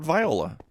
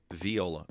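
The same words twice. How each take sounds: First: Viola said with vye, like "vie". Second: Viola said vee-OH-la with ee; viola pronounced vee-oh-la. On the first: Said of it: "I've always heard it called viola". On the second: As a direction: say viola as vee-oh-la, ee sound first. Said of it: "Yes, pronounced viola". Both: Shown as a demonstration.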